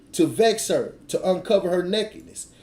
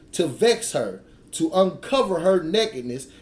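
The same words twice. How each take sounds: Both takes have the same delivery.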